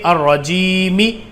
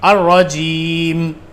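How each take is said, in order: First: The word ends with a short final vowel. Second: The word ends on a silent final consonant.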